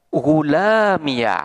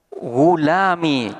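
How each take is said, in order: First: The word ends in an added iya syllable. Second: The word ends in a short i sound. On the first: "dimabnikan dengan fathah" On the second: "ya mutakallimnya ini dibuang dan menetapkan harkat kasroh"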